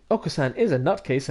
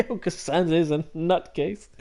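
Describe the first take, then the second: First: Said in the usual way. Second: Repeating it through a laugh; amused echo. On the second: Real, not acted. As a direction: laugh as you echo the phrase.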